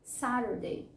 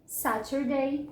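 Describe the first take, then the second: First: "Saturday" as SA-der-day, softer; American flapped T. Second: "Saturday" slowly as SA-ter-day, hard T; clear T. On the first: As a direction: tap the middle of "Saturday" the American way. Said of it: "geralmente os americanos". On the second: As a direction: return the full T to "Saturday", drawn out. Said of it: "como eu costumo falar". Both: Shown as a demonstration.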